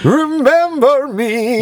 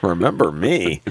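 First: Slow falsetto mimicry; high mock echo. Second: Said in the usual way. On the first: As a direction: stretch it high and silly.

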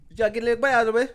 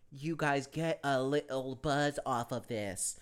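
First: Very fast, high, loud mock Jamaican accent; incomprehensible accent imitation. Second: Slow, softer, word-by-word delivery; slow careful enunciation. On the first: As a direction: rattle it off unintelligibly in a Jamaican accent. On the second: Retold or imitated. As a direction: imitate someone making each word understood, very slowly. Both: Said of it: "They don't understand your accent".

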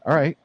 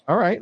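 First: All right with a rising lift on all; a mild rising all right, all stressed; all right, the word all lifted; first all right. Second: All right, right pitched higher and rising; a higher, brighter all right, right stressed; all right pushed up in pitch on right; second all right, higher. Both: Real, not acted.

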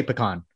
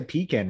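First: Pecan said as puh-KAHN, weak first syllable and a broad ah; pecan as puh-KAHN, the Texan way; puh-cahn pronunciation. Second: Pecan said as PEE-kan, long ee then flat a; pecan as pee-KAN, the way some people say it; pee-can pronunciation. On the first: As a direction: say pecan with a reduced first vowel and an open ah. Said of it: "I say pecan the same way as you do". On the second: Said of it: "Some people say pecan". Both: Shown as a demonstration.

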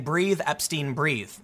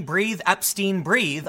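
First: Said in the usual way. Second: Slow, drawn-out mock yell. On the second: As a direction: stretch out "Breathe, Epstein, breathe" very slowly. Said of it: "why would someone be yelling".

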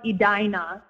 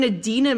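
First: Edina said as ee-DYE-nuh; correct pronunciation. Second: Edina said as eh-DEE-nuh; mispronounced Edina. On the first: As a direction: Edina with long ee then DYE stressed. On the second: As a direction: Edina with short eh and DEE stressed. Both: Shown as a demonstration. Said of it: "actually pronounced Edina".

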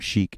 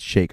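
First: "sheik" said as "sheek", with an ee vowel; mispronunciation shown. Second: "sheik" said as "shake", with an ay vowel; corrected pronunciation. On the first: Guest corrects his own word, showing "sheik" as "sheek". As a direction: say "sheik" to rhyme with "seek". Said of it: "It's, it's not sheik". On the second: Guest corrects his own word, showing "sheik" as "shake". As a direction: say "sheik" to rhyme with "make". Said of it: "it's, it's sheik". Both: Shown as a demonstration.

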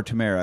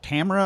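First: "Tamara" as tuh-MAIR-uh; stress on second syllable. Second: "Tamara" as TAM-er-uh; stress on first syllable. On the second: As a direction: hit the opening TAM in "Tamara". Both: Shown as a demonstration. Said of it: "where they put the emphasis".

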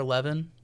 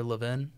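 First: Levin with an "eh" first vowel, LEV-in; first pronunciation. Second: Levin with a short "ih" first vowel, LIV-in; alternative pronunciation. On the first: Unsure of the name, Levin said as LEV-un. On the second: Offering another option, Levin said as LIV-in. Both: Shown as a demonstration. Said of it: "How do you say it?".

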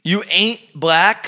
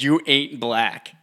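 First: High, slow disbelief; incredulous echo. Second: Slow, drawn-out quote; slow quoted line. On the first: Real, not acted. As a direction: repeat it in disbelief. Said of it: "incredulous echo". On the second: Retold or imitated. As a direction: drag out each word. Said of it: "He said".

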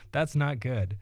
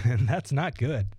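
First: Said in the usual way. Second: Chuckling through it; amused, laughing self-dig. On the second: Real, not acted. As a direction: laugh as you say it. Laughing at own joke.

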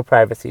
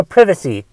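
First: Said in the usual way. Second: Privacy said the British way, with a short i as in "give"; British pronunciation. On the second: Shown as a demonstration. Podcaster jokingly correcting himself to how British people say privacy, British pronunciation. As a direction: say privacy like a Brit, "PRIV-uh-see". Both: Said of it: "as the British people say".

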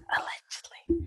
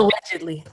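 First: Barely voiced whisper; whispered aside. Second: Said in the usual way. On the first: Real, not acted. Hedging a claim about their ages, whispered aside. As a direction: drop to a very soft whisper.

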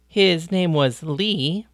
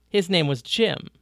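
First: Slow correction leaning on Lee; correcting, stress on Lee. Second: Said in the usual way. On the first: A narrator's reading. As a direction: set him straight, hit Lee. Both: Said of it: "Paris corrected him".

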